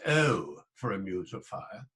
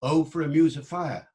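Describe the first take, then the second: First: "Oh" with a gliding southern English diphthong. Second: "Oh" said as a single pure long vowel, loud. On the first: Lecturer showing the wrong southern "Oh". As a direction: glide "Oh" like the south of England. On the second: Lecturer showing the original "Oh" vowel. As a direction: hold "Oh" without gliding. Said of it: "the very first word". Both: Shown as a demonstration.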